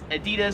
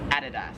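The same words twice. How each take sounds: First: It is said with an American accent. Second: It is said with an Australian accent. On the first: "In America, we would pronounce this as Adidas" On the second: "here in Australia, it is Adidas"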